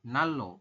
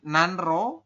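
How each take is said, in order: First: The middle is pronounced with a double L. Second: The middle is pronounced with an N then R. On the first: This is how it is actually read. "dibacanya adalah nalo" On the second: This is how it is written.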